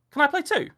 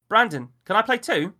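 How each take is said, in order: First: Put-on high, loud pleading child voice; a little boy begging again; small boy. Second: Put-on high, loud pleading child voice; a little boy begging to play; small boy. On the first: Child pleads with Miller again, high and loud. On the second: Child pleads with Miller to play, high and loud. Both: A narrator's reading.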